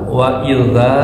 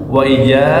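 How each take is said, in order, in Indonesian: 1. Kata ini memiliki bunyi th yang lembut. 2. Kata ini memiliki bunyi j. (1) "pakai zal" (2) "Kalau pakai jim"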